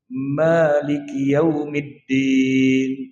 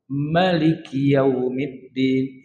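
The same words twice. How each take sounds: First: The first vowel of Maliki is long. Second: The first vowel of Maliki is short. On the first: God is the owner of the Day of Judgment. "Maliki dibaca panjang Pak" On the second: God is the king of the Day of Judgment. "Tapi ma itu dibaca pendek"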